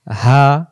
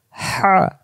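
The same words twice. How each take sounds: First: "হা" as an easy open h; plain deep ha. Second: Higher "হা" with rushing mid-throat friction; hissing throaty ha. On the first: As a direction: breathe out "হা" without throat friction. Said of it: "দুই অক্ষর দুই রকম উচ্চারণ". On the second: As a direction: squeeze "হা" through the throat with a whoosh. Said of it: "শো শো আওয়াজে ... গলার মাঝখান থেকে". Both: Shown as a demonstration.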